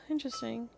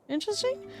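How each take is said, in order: First: Said in the usual way. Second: "Interesting" high with a rising end; questioning. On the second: Acted. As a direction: query "Interesting", pitch climbing sharply. Querying the word just said.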